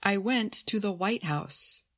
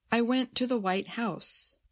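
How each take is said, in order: First: "White House" as one name, White strong, House falling; compound stress. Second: "White House" as adjective and noun, House carrying the weight; stress on noun. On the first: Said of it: "The first statement uses a compound noun". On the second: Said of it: "how the stress was different". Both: Shown as a demonstration.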